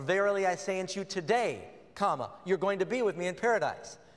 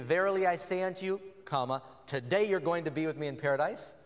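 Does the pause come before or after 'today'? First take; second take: after; before. First: The pause comes after the word today. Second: The pause comes before the word today.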